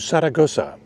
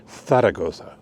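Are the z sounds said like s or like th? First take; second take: s; th. First: The z sounds are said like s. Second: The z sounds are said like th. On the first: This is the English name for the city. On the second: This is how local people say the name.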